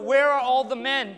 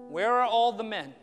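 First: It is said at a louder volume. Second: It is said at a softer volume.

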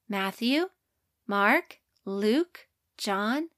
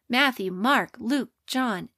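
First: The list is recited at a slower pace. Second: The list is recited at a faster pace.

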